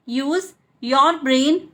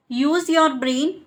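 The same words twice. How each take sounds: First: "use", pause, "your brain"; slow separated chunks. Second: Said in the usual way. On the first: Shown as a demonstration. Teacher repeats for learners, slowly in chunks. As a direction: slowly, break after "use".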